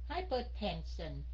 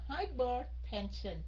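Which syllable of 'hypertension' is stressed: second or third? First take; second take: second; second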